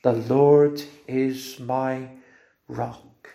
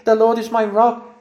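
First: Slow hushed confession. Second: Louder, higher proclamation; raised joyful declaration. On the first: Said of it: "Can you say it with the Lord listening on now?". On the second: Preacher urging the church to say it, ringing out. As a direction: lift it up for everyone to hear. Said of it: "So we can say today". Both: Shown as a demonstration.

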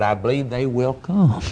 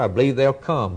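First: "will" said in full and firmly; stress on WILL. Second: Said in the usual way. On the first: Real, not acted. Preacher assures the congregation of sinners coming, stress on "will". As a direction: lean on "will" as a separate, stressed word.

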